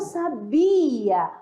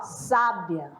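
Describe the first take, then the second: First: The stress is on the second syllable. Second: The stress is on the first syllable. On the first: "a sílaba forte, né, está na segunda" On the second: "A sílaba mais forte está na primeira"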